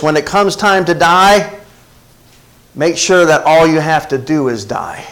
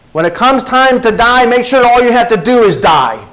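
First: Said in the usual way. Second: Higher-pitched, insistent restatement; emphatic repeat. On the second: Real, not acted. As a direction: drive it home to the congregation. Repeats quotation to drive it home.

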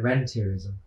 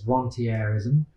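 First: Rentierism said the English way, like "REN-teer-ism"; anglicised pronunciation. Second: Rentierism said the French way, like "ron-tee-AIR-ism"; French-style pronunciation. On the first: Economist giving their own usual version, rentierism anglicised as "ren-teer-ism". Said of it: "or as I would al-, usually call it". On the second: Economist giving the supposedly correct pronunciation, rentierism as "ron-tee-air-ism". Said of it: "I believe the correct, correct pronunciation". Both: Shown as a demonstration.

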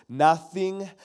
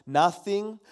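No difference in how they are said.

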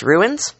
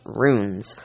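First: "ruins" in two syllables, voice rising at the end; pronounced "ruins". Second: "runes" as one long syllable, roon-z; pronounced "runes". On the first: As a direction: say "ruins" as two beats, roo-ins. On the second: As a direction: say "runes" in a single drawn-out beat. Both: Shown as a demonstration. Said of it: "I've heard 'em pronounced".

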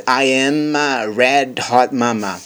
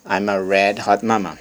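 First: Slow, higher-pitched teaching model; slow reading. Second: Said in the usual way. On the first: Shown as a demonstration. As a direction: draw out each word of the line. Teacher reads line slowly, then normally.

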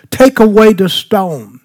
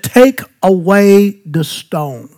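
First: Said in the usual way. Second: Jesus's command, drawn out; slow solemn command. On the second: Shown as a demonstration. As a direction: let each word land slowly.

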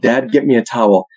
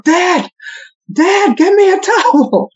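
First: Said in the usual way. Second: High, drawn-out holler for Dad; kids yelling. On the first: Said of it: "the way my kids yelled". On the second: Retold or imitated. Kids calling Dad from the upstairs shower, yelling. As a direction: yell it high like a child calling downstairs. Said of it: "My kids will yell out of the shower".

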